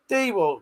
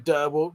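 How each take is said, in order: First: The first syllable sounds like 'dee'. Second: The first syllable sounds like 'der'. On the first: The speaker calls it right. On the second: The speaker calls it wrong. "You don't say Derwalt"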